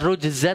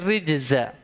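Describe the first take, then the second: First: The first vowel is a 'u' sound. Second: The first vowel is an 'i' sound. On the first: It refers to idols worshipped besides God. "bukan rujza" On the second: It refers to every kind of sin. "dalam qiraah lain dibaca rijza"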